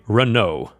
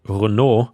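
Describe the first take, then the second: First: Renault is said with an American English pronunciation. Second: Renault is said with a French pronunciation. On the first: "in American English you would say" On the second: "which is the French way"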